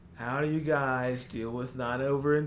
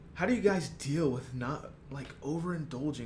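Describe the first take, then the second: First: It is read in a plain, normal voice. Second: It is read with added dramatic emotion. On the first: The speaker calls it right. "I'll just read it like normal" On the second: The speaker calls it wrong. "I wanted to add a little bit of like emotion to it"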